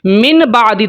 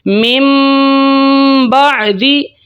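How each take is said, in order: First: A clear n sound comes before the b. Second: A nasalized m sound comes before the b. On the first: The speaker calls it wrong. "लफ्ज़ था मिन" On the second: The speaker calls it right. "नून को ख़त्म करके मीम पढ़ना है और गुन्ना करना है।"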